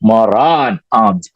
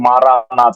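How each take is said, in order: First: It is split into two separate words. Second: It is run together as one word. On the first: The speaker calls it right. "മാറാൻ ആധ എന്ന ഉറക്കെ പറയുമായിരുന്നെന്ന്" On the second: The speaker calls it wrong. "നമ്മൾ ഒരുമിച്ചാക്കി മാറാനാഥ എന്ന് പറഞ്ഞു, അങ്ങനെയല്ല"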